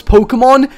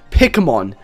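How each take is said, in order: First: Said in the usual way. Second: "Pokemon" said as "PICK-uh-mon"; mispronounced Pokemon. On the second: Retold or imitated. Streamer shows how Nathan says it, "Pokemon" mispronounced as "pickamon". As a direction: say "Pokemon" with a short "pick" for the first syllable. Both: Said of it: "that's how he actually says Pokemon".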